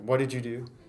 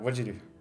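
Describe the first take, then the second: First: Each word is said fully and separately. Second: The words are slurred and run together.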